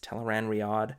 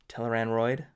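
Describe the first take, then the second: First: The last part has two syllables, ree-ad. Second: The last part rhymes with steroid. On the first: The speaker calls it right. "but it's Teleran Riyadh" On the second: The speaker calls it wrong. "my mind put the O before the I, like steroid"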